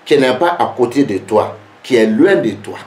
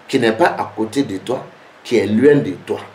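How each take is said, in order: Both takes have the same delivery.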